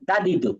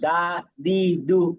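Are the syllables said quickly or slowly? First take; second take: quickly; slowly. First: The syllables are said quickly, run together. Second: The syllables are said slowly, with gaps between. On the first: The speaker calls it right. "তাড়াতাড়ি" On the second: The speaker calls it wrong. "এভাবে না"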